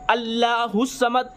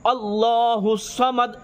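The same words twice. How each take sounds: First: The L in Allah sounds light and thin. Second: The L in Allah sounds full and heavy. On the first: The speaker calls it wrong. "इस तरीके से आपको नहीं पढ़ना है" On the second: The speaker calls it right. "ये हमेशा पुर पढ़ना है"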